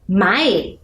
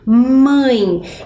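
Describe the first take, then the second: First: The vowel is oral, without nasal sound. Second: The vowel is strongly nasal, through the nose. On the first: It is not a real word. The speaker calls it wrong. "Existe mai?" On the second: It means mother. The speaker calls it right. "Ele é bem nasal"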